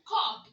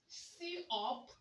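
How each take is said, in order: First: It begins with a plain 'k' sound. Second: It begins with the letter name 'see'. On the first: The speaker calls it right. "it's called what? Cup" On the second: The speaker calls it wrong. "Do you call it C up? No"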